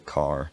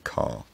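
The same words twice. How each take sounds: First: The r at the end is clearly pronounced. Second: The r at the end is dropped. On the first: "an American would say car" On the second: "a British speaker might say car"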